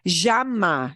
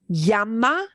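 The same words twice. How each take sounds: First: The ll sound is strong and heavy. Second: The ll sounds like a plain English y. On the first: "That's pretty strong" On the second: "a plain old English Y"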